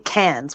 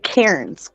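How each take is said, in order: First: It is said with an Australian pronunciation. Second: It is said with an American pronunciation. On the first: This is how locals say the name. "We wouldn't say cans" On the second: This is how outsiders say the name. "because we would say cairns"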